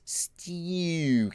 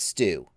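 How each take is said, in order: First: The vowel is a fronted Australian 'oo' sound. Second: The vowel is a plain American 'oo' sound. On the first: The speaker calls it right. "the other aspect of the Australian accent is the U" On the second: The speaker calls it wrong. "It's not stew"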